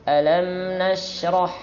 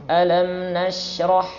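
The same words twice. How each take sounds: The two takes are said the same way.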